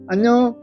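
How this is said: It is said cheerfully in a high pitch. The speaker is in a good mood. "기분이 좋을 때는 어 목소리가 어 하이톤이 자연스럽게 나요"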